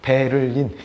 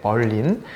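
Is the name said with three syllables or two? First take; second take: three; two. First: The name is said carefully, in three syllables. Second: The name is said short, in two syllables. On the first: This follows the spelling letter by letter. "스펠링대로 그냥 어, 또박또박 읽으면" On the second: This is the usual way people read the name. "이사야 벌린이라고도 우리가 읽는데"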